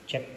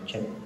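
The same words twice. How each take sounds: First: The voice has its low bass trimmed away. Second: The voice keeps its full unfiltered bass. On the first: "Yan yung may E Q" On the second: "Ito yung walang E Q"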